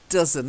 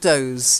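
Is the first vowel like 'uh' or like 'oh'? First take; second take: uh; oh. First: The first vowel sounds like 'uh'. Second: The first vowel sounds like 'oh'. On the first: The speaker calls it right. "It's an uh sound" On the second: The speaker calls it wrong. "not doze"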